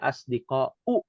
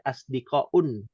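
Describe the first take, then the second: First: The word ends in a plain u vowel. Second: The word ends in u followed by n. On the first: The speaker calls it right. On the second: The speaker calls it wrong. "tidak boleh"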